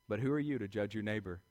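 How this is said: It is said in a calm, even way.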